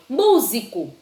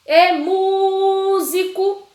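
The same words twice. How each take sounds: First: Said in the usual way. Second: High, loud call with a long "mú" in "músico"; drawn-out stressed syllable. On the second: Shown as a demonstration. Teacher showing pupils the tonic syllable, "mú" in "músico" stretched long. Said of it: "O que eu mais demorei foi o mu".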